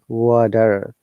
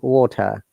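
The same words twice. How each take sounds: First: It is said in an American accent, with R. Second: It is said in a British accent, no R. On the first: "if you like to pronounce it in an American way" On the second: "in British Standard English there is no R sound"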